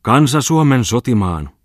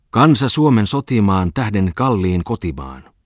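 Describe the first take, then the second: First: Loud, high, slow declamation; vigorous declaiming. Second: Loud, slow recital of patriotic verse; declaiming a poem. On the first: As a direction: hurl the verse out with renewed energy. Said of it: "Sitten hän alkoi tarmolla taas". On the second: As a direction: proclaim it from the stage, slowly. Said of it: "alkoi tarmolla taas". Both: Acted.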